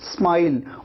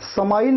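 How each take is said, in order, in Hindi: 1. s, m से बिना किसी स्वर के जुड़ता है। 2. s और m के बीच एक स्वर डाला जाता है। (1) "आप कहते हैं स्माइल" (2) "यहां पर समाइल नहीं कहना है, स नहीं पूरा लगाते"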